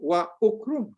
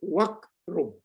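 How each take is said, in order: First: The initial vowel of ukrum is pronounced separately. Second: The initial vowel is dropped, linking into wakrum. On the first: The speaker calls it wrong. "kita tidak baca wa ukrum" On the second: The speaker calls it right. "Tapi kita baca wakrum"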